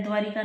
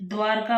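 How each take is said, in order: First: द्वारिका said as dwaa-ri-ka with a clear ri in the middle; wrong spelling. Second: द्वारका said as dwaar-ka, two syllables with no i sound; correct spelling. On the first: Teacher showing students the common mistake, द्वारिका with ri. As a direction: stress the extra ri in द्वारिका. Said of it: "द्वारिका नहीं होता". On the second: Teacher giving students the right form, द्वारका as dwaarka. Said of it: "द्वारका होता है". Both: Shown as a demonstration.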